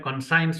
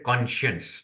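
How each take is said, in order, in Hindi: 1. बीच का हिस्सा s की आवाज़ से बोला जाता है। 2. बीच का हिस्सा sh की आवाज़ से बोला जाता है। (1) "हम लोग इंडिया में कॉन्साइंस बोलते थे" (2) "यहाँ उसको प्रोनाउंस करते हैं कॉन्शियंस"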